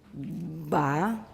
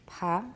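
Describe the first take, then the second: First: The stop has long, full voicing before it. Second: The stop is voiceless with slight aspiration. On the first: "Long, fully voiced" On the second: "slightly aspirated"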